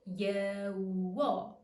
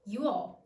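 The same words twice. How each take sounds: First: It is said slowly and drawn out. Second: It is said at a normal speed.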